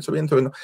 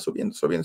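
First: Said in the usual way. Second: Soft whispered subiendo. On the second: Retold or imitated. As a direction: whisper subiendo, subiendo, barely audible, like creeping up the steps. Climbing dark stairs, hushed.

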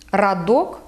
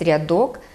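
First: Радок with a hard r, "ra-DOK". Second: Said in the usual way. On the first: Shown as a demonstration. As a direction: dialect радок, no softening of r. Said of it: "твердий". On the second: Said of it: "замість".

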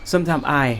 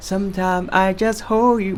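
First: "sometimes I" run together as "sometime-sai"; English linking, s joined to I; linked sometimes I. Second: "sometimes I" with each word cut apart, no linking; choppy Thai-accent English; Thai-style separated. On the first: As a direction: carry the s of "sometimes" into "I". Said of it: "อย่างเช่น". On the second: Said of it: "ไม่ใช่ครับ". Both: Shown as a demonstration.

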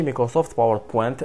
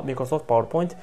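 First: باوربوينت with the end flattened to pent, not point; wrong pronunciation. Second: باوربوينت with the end said like English point, pojnt; correct pronunciation. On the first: Teacher demonstrating the mistake to avoid, pron. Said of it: "ماشي". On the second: Teacher showing learners the right way, clear pron. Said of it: "ينطقوها بوينت يعني مايكروسوفت باوربوينت". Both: Shown as a demonstration.

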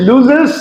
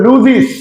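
First: লুজেস ending in "-zes", rising; old "-es" ending. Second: লুজিস ending in "-ziz", falling; new "-iz" ending. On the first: Teacher recalling the earlier way, লুজেস with "-zes". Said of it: "আগে বলেছি". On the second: Teacher showing the corrected way, লুজিস with "-ziz". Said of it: "এখন আমরা বলবো". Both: Shown as a demonstration.

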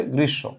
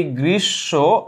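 First: Said in the usual way. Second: "গ্রীষ্ম" drawn out slowly, syllable by syllable. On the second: Shown as a demonstration. Teacher sounding out a word for the class, slowly. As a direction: stretch both halves of "গ্রীষ্ম".

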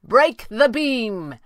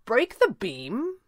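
First: High, loud, very slow call; drawn-out commanding shout, falling at the end. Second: High, slow puzzled question; feigned incomprehension, drawn out; playing dumb. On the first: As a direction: order it up to someone far above. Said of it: "he called". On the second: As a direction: echo it as if clueless, rising at the end. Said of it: "elected to play dumb". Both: A narrator's reading.

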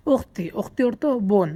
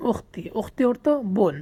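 Both takes have the same delivery.

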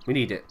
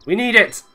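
First: Said in the usual way. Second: Higher, louder burst of need; insistent little outburst; emphatic exclamation. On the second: Real, not acted. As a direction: punch it out high and loud. Repeats it with more urgency.

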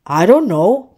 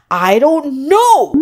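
First: Mild storybook shrug; shrugging. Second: Loud, high, drawn-out storybook shout; frustrated shout. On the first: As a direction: say it offhand, without shouting. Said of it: "Puffy shrugged". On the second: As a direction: shout it crossly, stretching the words slowly. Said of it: "Puffy shouted". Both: A narrator's reading.

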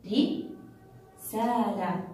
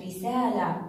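First: "رسالة" broken after a short ري, long pause, then سالة; very slow "رسالة", halted after its first syllable; split into syllables. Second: Said in the usual way. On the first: Shown as a demonstration. Teacher showing pupils where the kasra is, split into syllables. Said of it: "على الراء". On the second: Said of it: "كلمة رسالة".

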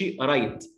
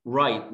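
First: Write as "i-rait", extra vowel before R; mistaken R onset. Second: Write as "rait", W silent, straight onto R; clean initial R. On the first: Teacher shows what not to say, added vowel. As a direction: say write wrongly with a small vowel first. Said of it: "ما تقولش". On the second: Teacher shows the R sound, clean onset. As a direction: say Write in one syllable from a rounded R. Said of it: "شوف ال R عاملة إزاي". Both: Shown as a demonstration.

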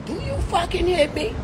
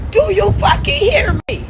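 First: Softer, with a rise on "you"; quiet warning. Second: Shout. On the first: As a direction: lean in, ask "you" softly. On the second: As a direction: yell it at them. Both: Acted.

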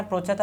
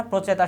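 First: "প্রচেত" without the final "a"; forme erronée. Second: "প্রচেতা" with a final "a"; corrected form. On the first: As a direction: say "প্রচেত", stopping on the final t sound. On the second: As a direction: end "প্রচেতা" on an open "ta". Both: Shown as a demonstration. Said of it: "এখানে প্রচেত হবে না".

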